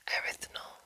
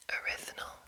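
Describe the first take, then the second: No difference in how they are said.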